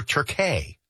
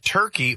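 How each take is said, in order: First: "Turkey" said "tur-KAY"; Turkish-style pronunciation. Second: Said in the usual way. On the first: Shown as a demonstration. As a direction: end "Turkey" on a stressed "kay". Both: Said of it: "do we call it Turkey or Turkey".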